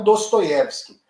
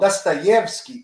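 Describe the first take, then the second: First: The first vowel sounds like 'o'. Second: The first vowel sounds like 'a'. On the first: The speaker calls it wrong. "e não Dostoiévski" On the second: The speaker calls it right. "o O em russo, quando é átono, ele é pronunciado como A"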